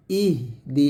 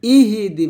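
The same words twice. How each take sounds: First: "ইহ দি" with airy h and no vowel; "ইহ", slight gap, "দি"; correct silent h. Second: "ইহি দি" louder, i after the h; "ইহি" with the h given a vowel; mistaken added vowel. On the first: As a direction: breathe out the h, then say "দি". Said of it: "এরকম". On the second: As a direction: run "ইহি দি" together as three syllables. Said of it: "ইহি দি বলবেন না". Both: Shown as a demonstration.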